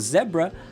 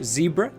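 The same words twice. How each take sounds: First: It is said with a British pronunciation. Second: It is said with an American pronunciation.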